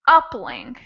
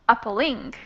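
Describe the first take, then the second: First: The stress is on the first syllable. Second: The stress is on the third syllable. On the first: "the first syllable was stressed" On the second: "the last one would be appalling"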